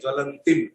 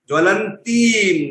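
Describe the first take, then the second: First: The vowel before the final m is short. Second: The vowel before the final m is long. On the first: The speaker calls it wrong. "वैसा कोई शब्द है ही नहीं संस्कृत भाषा में" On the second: The speaker calls it right. "दीर्घकालीन मात्रा"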